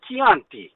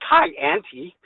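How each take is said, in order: First: It is said with an Italian pronunciation. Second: It is said with an Americanized pronunciation. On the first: The speaker calls it right. "You say Chianti" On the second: The speaker calls it wrong. "you don't say Chianti"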